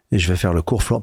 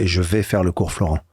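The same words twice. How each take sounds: First: Said in the usual way. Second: Vais pressed firmly, falling tune at the end; stress on vais. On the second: Shown as a demonstration. Announcing to his parents, firm stress on vais. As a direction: lean on the word vais, not veux. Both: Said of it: "Pas je veux ou j'aimerais".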